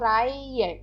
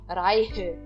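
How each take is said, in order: First: The h in the middle is silent. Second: The h in the middle is pronounced. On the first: The speaker calls it right. "eu digo Reihe. Ele simplesmente não é pronunciado aqui" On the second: The speaker calls it wrong. "a gente não fala Reihe"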